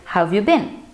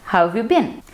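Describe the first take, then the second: First: The words are run together with a contraction. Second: The words are run together with a contraction.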